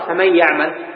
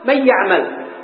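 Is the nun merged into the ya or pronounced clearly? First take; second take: merged; clear. First: The nun merges into the ya with nasalisation. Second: The nun is pronounced clearly before the ya. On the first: The speaker calls it right. "لما نقرأ فمن يعمل" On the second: The speaker calls it wrong. "نحن ما نقرأ من مظهرها ولا نقول من يعمل"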